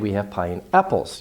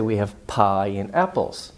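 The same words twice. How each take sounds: First: Apples carries more stress than pie. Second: Pie and apples carry equal stress. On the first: "You could have more stress on the apples" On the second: "Equal stress on both words"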